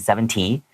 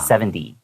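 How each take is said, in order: First: The middle consonant is a clear, hard t. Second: The middle consonant sounds like a soft d. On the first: The speaker calls it wrong. "because they see the T, they go" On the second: The speaker calls it right. "we actually pronounce it like, like with a D"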